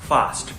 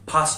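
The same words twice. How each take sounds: First: The upper teeth touch the lower lip. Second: The f is made with both lips. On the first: The speaker calls it right. "ऊपर वाले दांत ... नीचे वाले होठ पर ... फास्ट निकलेगा" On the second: The speaker calls it wrong. "फास्ट नहीं होगा"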